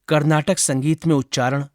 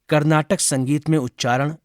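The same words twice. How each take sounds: The two takes are said the same way.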